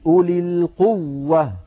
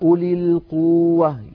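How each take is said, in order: First: The doubled w is pressed with clear extra force. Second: The doubled w is said lightly without extra pressure. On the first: The speaker calls it right. "المشايخ على طول يقولون بين التشديد" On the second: The speaker calls it wrong. "لو قلنا أولي القوة"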